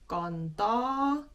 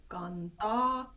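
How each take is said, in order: No difference in how they are said.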